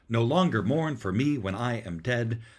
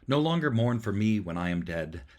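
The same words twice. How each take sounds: First: Every second syllable is strongly stressed. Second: The rhythm sounds natural, without marked beats.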